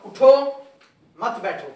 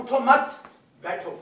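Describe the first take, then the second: First: उठो said alone, a clear break, then मत बैठो; pause after उठो. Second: उठो मत run together loud, break, then बैठो; pause after मत. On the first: Teacher shows students where to stop, pausing after उठो. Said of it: "अब मैं यहाँ वक्फ करता हूँ". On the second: Teacher contrasts the meaning for students, pausing after मत. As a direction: punch उठो मत as one unit, pause before बैठो. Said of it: "अब मैं कहता हूँ". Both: Shown as a demonstration.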